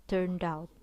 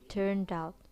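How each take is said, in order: First: The final d links into the next word. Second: The final d links into the next word.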